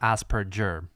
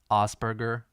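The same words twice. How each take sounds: First: The name is said with English sounds. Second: The name is said with its original German sounds. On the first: The speaker calls it wrong. "it's not Asperger. That is a very English thing" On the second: The speaker calls it right. "In the original, it's as I guess I guess As or maybe Asperger"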